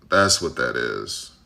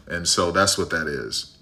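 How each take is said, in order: First: Much lower and slow, a put-on voice; low slow repeat. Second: Said in the usual way. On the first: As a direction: drop the voice way down and drag it out. Repeats his closing line lower.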